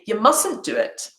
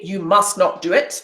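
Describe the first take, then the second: First: The words 'must not' are contracted to 'mustn't'. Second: The words 'must not' are said in full. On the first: The speaker calls it right. "I say" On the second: The speaker calls it wrong. "I don't say"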